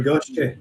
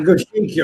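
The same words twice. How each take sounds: First: Goshiki shortened to GOSH-keh; alternative pronunciation. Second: Goshiki said go-SHEE-kee; first pronunciation. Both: Shown as a demonstration. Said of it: "Is that a Goshiki or a Goshiki?".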